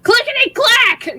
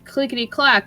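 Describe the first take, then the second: First: It sounds aggressive and threatening. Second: It sounds light and curious. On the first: The creatures are about to attack. "like for attack" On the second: The creatures are only curious. "in a a curious stage"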